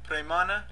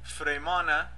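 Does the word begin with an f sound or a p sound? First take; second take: p; f. First: The word begins with a p sound. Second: The word begins with an f sound. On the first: The speaker calls it right. "The real pronunciation of the fa words actually is pa" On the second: The speaker calls it wrong. "In Farsi, they use Fremana, which is linguistically wrong"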